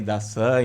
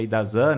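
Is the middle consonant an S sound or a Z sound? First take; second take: S sound; Z sound. First: The middle consonant is a voiceless S sound. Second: The middle consonant is a voiced Z sound.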